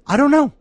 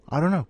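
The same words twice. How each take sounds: First: Much higher, playful squeak; squeaky shrug. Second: Said in the usual way. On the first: Pretend. Host shrugs off his plans, squeaky and high. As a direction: toss it off in a silly high voice.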